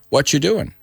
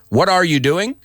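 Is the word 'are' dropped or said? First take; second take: dropped; said. First: The word 'are' is dropped completely. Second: The word 'are' is said in full.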